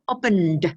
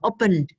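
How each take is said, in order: First: The final d is released with an added vowel. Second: The voice stops just before the final d. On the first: "If I exaggerate, I add the" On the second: "And now I stop before"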